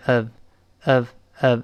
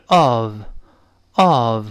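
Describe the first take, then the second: First: "of" reduced to a short schwa plus v; weak form. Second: "of" in full, slow with a long open o; stressed form. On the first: Teacher showing of when unstressed, weak form. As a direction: say "of" lightly, as uhv. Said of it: "轻读变成of". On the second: Teacher showing of when it is stressed, strong form. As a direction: give "of" its strong vowel. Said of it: "如果重读的话是of". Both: Shown as a demonstration.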